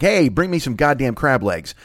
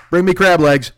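First: Drawn-out, easygoing demand down the phone; casual food order. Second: Loud, higher royal command; commanding king. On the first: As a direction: lazily call in your order. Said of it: "you make a phone call and you're like". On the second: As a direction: boom out an order like a king. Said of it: "you're like a king". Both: Acted.

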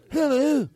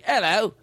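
First: High, falling mock mobster hello; brought-down mafia hello. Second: Cockney hello, higher with rising end. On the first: Host contrasting with Cockney, mock mafia hello. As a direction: pitch it up and let it fall, mobster-style. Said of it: "it just sounds like". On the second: Host explaining Cockney to friends, Cockney accent. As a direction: lift it into a Cockney greeting. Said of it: "Cockney is like". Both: Shown as a demonstration.

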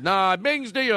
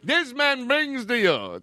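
First: "bings" said with no r, like b-ings; dropping the r. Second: "brings" said with a clear r, pitched up high; the r put back. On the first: Host defends his fake accent to his co-host, "bings" without the r. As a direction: leave the r out of "bings". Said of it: "I have a fake accent". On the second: Host corrects himself for his co-host, "brings" with a full r. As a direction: stress the r in "brings", hammed-up and high. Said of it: "Didn't you mean to say brings to?". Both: Shown as a demonstration.

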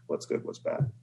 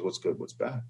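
First: "What's good, what's bad?" breathed softly, unvoiced; quiet refrain. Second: Put-on the old farmer, quiet and unbothered; calm old farmer. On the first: Shown as a demonstration. Storyteller closing the farmer parable, whispered softly. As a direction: let the refrain fall away to a whisper. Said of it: "repeated refrain as moral". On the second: Old farmer answering his neighbor, soft and calm. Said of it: "And the old farmer goes".

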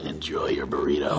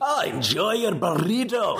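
First: Very low angel character voice; Castiel. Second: Slow, higher, hammed-up Scottish accent; terrible Scottish accent. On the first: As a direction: drop the pitch way down, restrained delivery. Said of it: "Now, now do the Castiel". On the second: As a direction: ham up a bad Scottish brogue, stretched out. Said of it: "Or a terrible Scottish accent read". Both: Shown as a demonstration.

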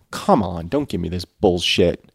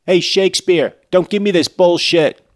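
First: Said in the usual way. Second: Loud, high, fed-up yell; loud exasperated shout. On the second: Real, not acted. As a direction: shout it at the author. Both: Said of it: "repeated louder".

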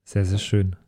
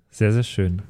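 Both takes have the same delivery.

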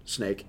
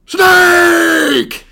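First: Low, soft mutter; quiet. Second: Loud shouted cry. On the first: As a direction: say it under your breath. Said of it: "and I just wrote". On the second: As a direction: yell it out. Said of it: "is what I wrote down". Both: Retold or imitated.

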